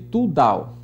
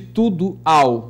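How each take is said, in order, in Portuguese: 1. O o de 'tudo' é apagado e fundido. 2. O o de 'tudo' é pronunciado por completo. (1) "houve aqui a supressão" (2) "da vogal O de tudo ao"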